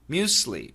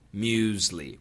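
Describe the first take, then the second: First: The middle consonant is an S sound. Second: The middle consonant is a Z sound. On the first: "some Americans do say muesli, muesli, with an S sound" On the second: "the safe pronunciation is muesli. Muesli. With a Z sound"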